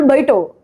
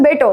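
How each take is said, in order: First: ബൈട്ടോ with a gliding ai vowel; our baito. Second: ബേട്ടോ with a single e vowel; their beto. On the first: Showing how we say it, ബൈട്ടോ with ai. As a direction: open ബൈട്ടോ on an ai glide. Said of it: "നമ്മൾ". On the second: Showing how the guest's people say it, ബേട്ടോ with e. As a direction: say ബേട്ടോ with a pure long e. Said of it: "ഇവര് പറയുന്നത്". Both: Shown as a demonstration.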